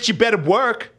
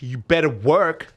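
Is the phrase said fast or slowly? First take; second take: fast; slowly. First: The phrase is said at a fast pace. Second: The phrase is said at a slow pace. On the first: The speaker calls it wrong. "Okay, that wasn't horrible" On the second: The speaker calls it right. "can you just slow down a little bit?"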